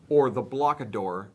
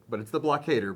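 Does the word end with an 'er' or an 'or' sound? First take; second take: or; er. First: The last syllable has an 'or' vowel. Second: The last syllable has an 'er' vowel. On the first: The speaker calls it wrong. "as some of you like to pronounce it" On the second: The speaker calls it right.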